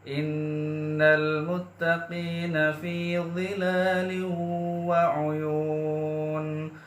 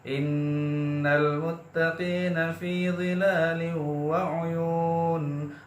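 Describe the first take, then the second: First: It is recited at a moderate speed. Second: It is recited quickly. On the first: "Itu dibaca tadwir atau sedang" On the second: "itu dibaca hadar atau dibaca cepat"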